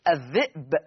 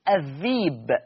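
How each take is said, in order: First: The middle has a glottal stop before the vowel. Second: The middle has a long ee vowel instead. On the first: "الذئب تبدل ياء" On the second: "فتصير الذيب"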